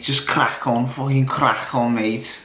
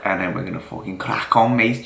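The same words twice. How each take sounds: First: Mock Scouser accent. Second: Said in the usual way. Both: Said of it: "I'm pretty good with a Scouser accent".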